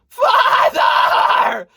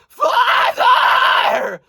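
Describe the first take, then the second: No difference in how they are said.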